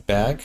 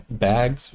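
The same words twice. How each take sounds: First: "bag" with no s at the end; final S dropped. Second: "bags" with the final s sounded; final S pronounced. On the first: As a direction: say plural bags as "bag", dropping the s. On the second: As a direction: say "bags" in full, ending on the s. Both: Shown as a demonstration. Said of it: "we don't say the S".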